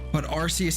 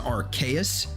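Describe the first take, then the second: First: The second syllable starts with an s sound. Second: The second syllable starts with a k sound. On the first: "Arceus has also been said" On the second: "as in archaic"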